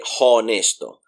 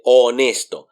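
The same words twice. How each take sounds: First: Honesto with a breathy English h at the start; H pronounced. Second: Honesto starting straight on the O; silent H. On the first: Teacher warns learners off the wrong honesto, H sounded. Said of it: "So we wouldn't say". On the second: Teacher shows learners the Spanish honesto, H mute. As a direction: drop the H in honesto, "o-NES-to". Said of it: "We say honesto". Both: Shown as a demonstration.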